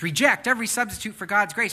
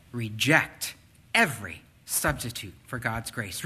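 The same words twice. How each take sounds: First: Higher and louder, driving the words home; emphatic preaching. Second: Said in the usual way. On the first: Acted. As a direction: preach it with full force. Repeats Paul's words forcefully.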